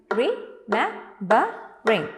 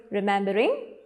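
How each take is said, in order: First: "Remembering" slowly split into four beats; syllable by syllable. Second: Said in the usual way. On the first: Shown as a demonstration. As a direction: beat out re, mem, be, ring for "Remembering", pausing after each. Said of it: "Four beats". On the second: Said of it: "How do you pronounce it?".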